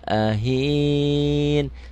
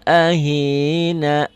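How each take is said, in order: First: The final vowel is dropped, ending on n. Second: The word ends with a sounded final vowel. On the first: The reading stops at this word. "Saya ingin berhentinya di sini" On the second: The reading continues on without stopping. "Apabila ingin disambung, huruf-huruf ujungnya itu dibunyikan"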